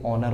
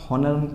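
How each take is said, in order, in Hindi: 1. यह शब्द सीधे स्वर से शुरू होता है। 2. यह शब्द 'h' की ध्वनि से शुरू होता है। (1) "ये ऑनर होता है" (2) "हम लोग हॉनर पढ़ते हैं इसको, लेकिन बच्चों ये हॉनर नहीं होता"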